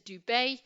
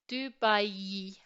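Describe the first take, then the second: First: The final vowels merge into one sound. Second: The final i is a separate ee sound. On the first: The speaker calls it wrong. "as opposed to" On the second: The speaker calls it right. "it becomes um, a separate sound"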